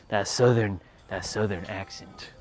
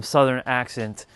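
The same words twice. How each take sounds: First: Low, soft, slow southern drawl; half-hearted go at a Southern accent; mock southern accent. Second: Said in the usual way. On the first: Shown as a demonstration. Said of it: "bust out some southern accent". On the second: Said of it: "not about to bust out some southern accent".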